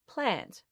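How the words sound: It is said with a general Australian accent. It is how most of the country says it. "the rest of Australia says"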